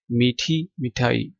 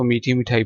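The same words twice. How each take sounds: First: मीठी and मिठाई as two separate words with a clear pause between; pause at the comma. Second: मीठी मिठाई run together as one phrase with no pause; no pause between मीठी and मिठाई. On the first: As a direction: say मीठी, stop, then मिठाई. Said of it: "ये comma है बीच में". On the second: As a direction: read मीठी मिठाई straight through without stopping. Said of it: "ये ना हो आप इसको मीठी मिठाई पढ़ लें". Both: Shown as a demonstration.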